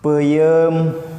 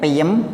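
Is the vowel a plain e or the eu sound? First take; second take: eu; plain e. First: The vowels are the eu sound. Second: The vowels are plain e sounds. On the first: The speaker calls it right. "huruf vokal e peuyeum" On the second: The speaker calls it wrong. "ulah peyem"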